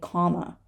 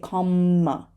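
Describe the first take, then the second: First: The M sound is short and single. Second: The M sound is held long, doubled. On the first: The speaker calls it right. "We just say comma" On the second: The speaker calls it wrong. "We don't say comma"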